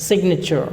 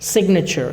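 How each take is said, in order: The two takes are said the same way.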